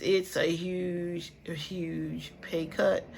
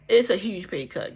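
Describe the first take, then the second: First: Slow, drawn-out repeat, softer; slow emphasis. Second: Said in the usual way. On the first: Real, not acted. Vlogger tells viewers about her pay cut, slow and heavy. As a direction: stretch every word to let it sink in.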